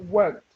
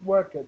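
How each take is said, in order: First: It is said the standard English way. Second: It is said the way Brazilian learners say it. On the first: The speaker calls it right. "It's pronounced worked" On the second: The speaker calls it wrong. "it's not pronounced worked. ... a lot of Brazilian people say worked"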